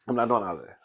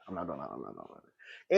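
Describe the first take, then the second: First: Said in the usual way. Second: Much lower, much softer trailing off; fading mutter. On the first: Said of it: "girl, I'm not doing all of that". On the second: Shown as a demonstration. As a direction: fade to a mutter.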